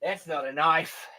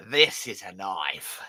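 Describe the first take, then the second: First: Lightly voiced Dundee, "That's not a knife" said flat and dismissive; a hint of the Aussie knife line; Crocodile Dundee impression. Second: Slow, lower Aussie-tinged "This is a knife" with weight on "This"; Crocodile Dundee impression. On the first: Host doing the Dundee line over the box cutter, lightly voiced. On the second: Host imitating Crocodile Dundee showing his knife, slow and proud. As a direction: boast "This is a knife" slowly like Dundee. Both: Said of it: "that was another one".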